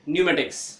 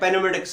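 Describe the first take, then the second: First: The word starts with an n sound, no p. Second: The word starts with p plus a vowel. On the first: The speaker calls it right. "क्या करेंगे, न्यूमेटिक्स" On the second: The speaker calls it wrong. "या पेनोमेटिक्स नहीं करेंगे"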